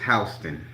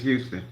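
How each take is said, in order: First: The name is said the Georgia way. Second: The name is said the Texas way. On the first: "Georgia is Houston" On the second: "Texas is Houston"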